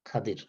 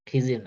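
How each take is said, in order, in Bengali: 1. নামটি Khadir বলা হয়, a আর d দিয়ে। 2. নামটি Khijir বলা হয়, i স্বরধ্বনি দিয়ে। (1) "আরবিতে হলো খাদির" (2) "খিজির না"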